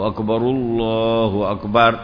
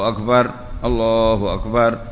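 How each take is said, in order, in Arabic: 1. الراء الأولى عليها ضمة. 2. الراء الأولى ساكنة مع وقف. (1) "فالأفصح الضم" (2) "فيكون بالسكون وقفا"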